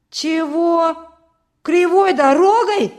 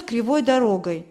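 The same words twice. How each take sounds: First: High, loud outraged questions; outraged boy's shout, building on the repeated words; loud indignation. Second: Said in the usual way. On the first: A narrator's reading. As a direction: cry out in indignant disbelief. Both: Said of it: "громко возмутился Петька".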